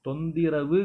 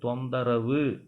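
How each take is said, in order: First: The vowel after 'thon' is 'i'. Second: The vowel after 'thon' is 'a'. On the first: The speaker calls it wrong. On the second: The speaker calls it right.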